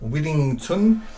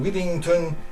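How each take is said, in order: First: It is said with a French accent. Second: It is said with a plain English accent.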